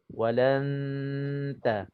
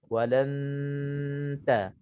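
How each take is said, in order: First: The nasal hum blends straight into the t. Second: The same.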